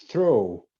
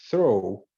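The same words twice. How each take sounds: Both takes have the same delivery.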